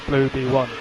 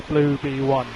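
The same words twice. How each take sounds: The two takes are said the same way.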